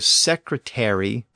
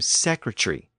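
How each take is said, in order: First: The ending is said fully, like 'airy'. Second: The ending is shortened to just 're'. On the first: This is the older form of the word. "from airy to just re" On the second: This is the later shortened form of the word. "from airy to just re"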